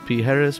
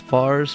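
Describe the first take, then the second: First: The name sounds like 'Pijeres', three syllables. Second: The name sounds like 'Fars', one syllable. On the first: "Commonly mispronounced" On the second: "Commonly mispronounced"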